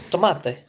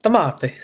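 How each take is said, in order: First: "Tomate" tried as to-MAH-te, Spanish vowels; tentative Spanish "Tomate"; Spanish attempt. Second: "Tomate" with an Italian lilt, ending in a clear "-ti"; playful Italian-accented "Tomate". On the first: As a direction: sound out "Tomate" the Spanish way, unsure. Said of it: "That was probably wrong". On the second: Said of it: "I sounded Italian". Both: Shown as a demonstration.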